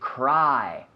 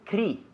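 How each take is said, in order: First: The vowel sounds like 'eye'. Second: The vowel sounds like 'ee'. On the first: The speaker calls it right. "We say cry" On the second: The speaker calls it wrong. "We don't say cri"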